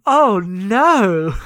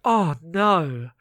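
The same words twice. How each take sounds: First: Loud, long-drawn swooping "oh no"; big hammed-up cringe, much louder; mortified dismay. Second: Drawn-out groaned "oh no"; a restrained first cringe at something awful; embarrassed dismay. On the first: Cohost reacts to embarrassing poem, loud mortified dismay. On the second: Retold or imitated. Cohost reacts to bad poem read out, embarrassed dismay. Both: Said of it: "it's embarrassing".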